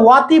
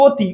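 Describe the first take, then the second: First: ওয়াতি begun with a spread, open "aw"; wrong open vowel. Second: অতি said "o-ti", lips rounded; rounded closed vowel. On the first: Teacher showing students the wrong form, open-vowel ওয়াতি. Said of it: "আমরা কিন্তু এটা ওয়াতি বলি না". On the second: Teacher giving students the correct form, round "o" in অতি. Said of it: "আমরা বলি অতি". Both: Shown as a demonstration.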